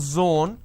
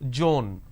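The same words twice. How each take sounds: First: The word begins with a z sound. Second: The word begins with a j sound. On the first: The speaker calls it right. "Instead of saying zone" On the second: The speaker calls it wrong. "They sometimes interchange"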